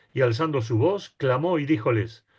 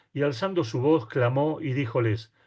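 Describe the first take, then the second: The two takes are said the same way.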